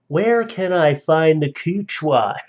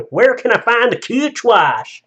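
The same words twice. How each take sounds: First: Slow, lightly put-on Southern drawl; loud Southern accent. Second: High, loud, hammed-up Southern drawl; loud Southern accent. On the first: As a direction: read it in a slightly hammy Southern accent, slowed down. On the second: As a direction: belt out a slow, exaggerated Southern accent. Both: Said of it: "One said in a loud Southern, uh, accent".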